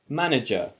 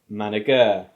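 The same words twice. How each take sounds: First: The stress falls on the usual syllable. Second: The stress falls on an unusual syllable. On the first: Listeners understand the word. The speaker calls it right. "instead of manager" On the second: Listeners would not understand the word. The speaker calls it wrong. "imagine if I said manager"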